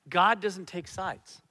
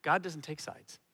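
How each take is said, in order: First: "God doesn't take sides" said slow and louder, each word weighted; slow emphatic restatement. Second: Said in the usual way. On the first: Shown as a demonstration. Pastor drives home "God doesn't take sides" to the congregation, slow and weighted.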